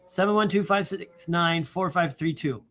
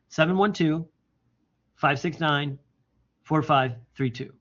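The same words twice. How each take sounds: First: The digits run together without any pauses. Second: The digits are grouped with pauses between chunks. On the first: The number is hard to remember. The speaker calls it wrong. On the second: The number is easy to remember. The speaker calls it right.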